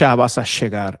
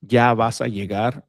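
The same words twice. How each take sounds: First: The y and ll sound like English sh. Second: The y and ll sound like English y.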